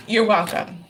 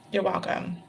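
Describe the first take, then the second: First: Said in the usual way. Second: Much softer echo of the thanks; a quiet afterthought you're welcome; softer repeat. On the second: Real, not acted. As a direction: drop it almost to a murmur. Thanking viewer, said twice.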